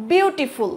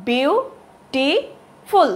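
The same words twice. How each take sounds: First: Said in the usual way. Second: বিউটিফুল very slowly in three separate beats; broken into syllables. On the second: Shown as a demonstration. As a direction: break বিউটিফুল into syllables, pausing after each. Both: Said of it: "ভেঙে ভেঙে উচ্চারণ করতে হচ্ছে".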